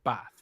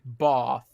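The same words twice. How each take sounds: First: It is said in a non-London accent. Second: It is said in a London accent. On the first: "instead of bath" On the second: "like a Londoner say bath"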